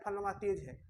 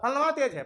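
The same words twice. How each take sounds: First: फलनमा तेज है said softly and offhand as people usually say it; mock the everyday remark quietly, फलनमा तेज है; quoting a common saying. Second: फलनमा तेज है with फलनमा stressed and the line a bit louder; emphatic repeat. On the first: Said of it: "हम लोग क्या बोलते हैं". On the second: Shown as a demonstration. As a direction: punch फलनमा as you repeat it. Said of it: "गजब का बात".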